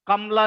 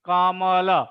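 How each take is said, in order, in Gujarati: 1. શબ્દ સ્વર વગરના વ્યંજનથી પૂરો થાય છે. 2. શબ્દ ટૂંકા અ સ્વરથી પૂરો થાય છે. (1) "કમલ નહીં" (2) "છેલ્લે કાંઈ ન હોય એટલે અ નું ઉચ્ચારણ કરવાનું"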